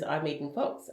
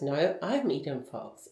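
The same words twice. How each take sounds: First: Said in the usual way. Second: Slow retold rebuttal, leaning on "I'm" with a falling end; contradicting stress on I'M. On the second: Other woman disputes her identity, slow stress on "I'm". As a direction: draw out "No, I'm" to claim the name, falling firmly.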